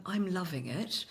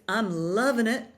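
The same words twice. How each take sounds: First: Stiff, careful British reading, quiet and slow; British delivery with every word neatly sounded; British accent. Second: American LOVIN' IT, dropped G, higher; louder, punchy American slogan delivery; American accent. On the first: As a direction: say it softly, too properly British. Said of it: "you just can't say". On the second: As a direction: sell it like an American ad. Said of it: "they just have an American accent to them". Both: Shown as a demonstration.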